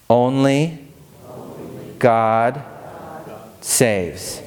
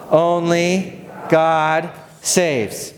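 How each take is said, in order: First: Slow, spaced words; call to repeat. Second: Very slow, higher congregation chant; slow group repeat. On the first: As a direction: say each word apart for them to repeat. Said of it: "Repeat after me these three words". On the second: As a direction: drag out "Only God saves" together. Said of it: "say it again". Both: Shown as a demonstration.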